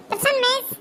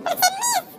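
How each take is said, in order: First: High-voiced schoolgirl; pupil answering roll. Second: Very high, squeaky schoolgirl; squeaky pupil answering roll. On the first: Ramya answers the teacher's roll call, high pupil voice. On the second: Acted. Divya answers the teacher's roll call, very high squeaky voice. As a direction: pipe up right at the top of the voice.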